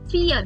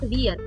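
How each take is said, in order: First: The word begins with an F sound. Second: The word begins with a V sound. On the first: The speaker calls it right. "V is always pronounced as F" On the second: The speaker calls it wrong. "not vier"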